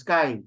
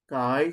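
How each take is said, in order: First: "kai" pitched up instead of lowered; wrong accent. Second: "kai" low and going down; grave accent down. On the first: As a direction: lift "kai" as the mistaken reading. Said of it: "you do not read this as kai". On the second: Teacher correcting the reading, kai lowered. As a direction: drop the voice on "kai". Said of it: "So it should go down". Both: Shown as a demonstration.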